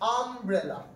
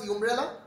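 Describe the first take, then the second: First: The word begins with an 'uh' vowel sound. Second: The word begins with a 'yoo' sound. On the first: The speaker calls it right. "আমরা এখন আম করে বলছি।" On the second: The speaker calls it wrong. "Did we pronounce ইউমব্রেলা?"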